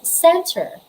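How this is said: The final R is clearly pronounced. "For Americans, they usually pronounce that as center. Malinaw yung R"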